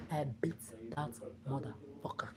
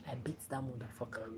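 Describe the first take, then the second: First: Whisper. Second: Said in the usual way. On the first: Retold or imitated. Repeating to followers that she beat him, whispered. Retold confrontation, said twice.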